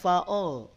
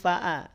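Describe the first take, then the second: First: The vowel is heavy and rounded, like o. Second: The vowel is light and open, like a. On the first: The speaker calls it wrong. "tidak fa'o" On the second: The speaker calls it right. "tapi fa'a. Hamzahnya jangan terbawa tebal"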